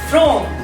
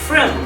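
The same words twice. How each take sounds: First: The word has a full, clear vowel. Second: The word has a reduced, weak vowel. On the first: "the complete version" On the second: "its weak version is from"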